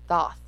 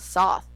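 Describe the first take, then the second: First: The word begins with a th sound. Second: The word begins with an s sound. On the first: The speaker calls it right. "It's Thoth" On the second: The speaker calls it wrong. "There's no S there. It's not Soth"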